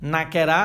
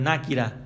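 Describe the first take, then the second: First: It is said in an Urdu accent, with 'ke'. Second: It is said in an Arabic accent, with 'ki'. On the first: The speaker calls it wrong. "এই উচ্চারণগুলো হচ্ছে উর্দুর accent" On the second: The speaker calls it right. "নাকিরা বলতে হবে"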